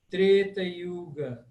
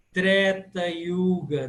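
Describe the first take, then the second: First: Treta with a closed E; slow 'TRAY-ta' for Treta Yuga; closed 'e' vowel in Treta. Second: Treta with an open E; slow 'TREH-ta' for Treta Yuga. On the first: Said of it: "sempre fechado". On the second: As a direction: open 'eh' vowel in Treta. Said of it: "falar esse som sempre aberto". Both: Shown as a demonstration.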